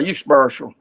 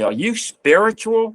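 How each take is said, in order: First: It is said in a plain, casual way. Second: Each word is said slowly and carefully.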